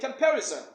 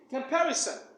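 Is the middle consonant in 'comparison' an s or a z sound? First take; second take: z; s. First: The middle consonant is a buzzing z sound. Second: The middle consonant is a hissing s sound. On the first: The speaker calls it wrong. "You would probably say comparison. But it is not comparison" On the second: The speaker calls it right. "the S here should produce a seen sound instead of the za sound"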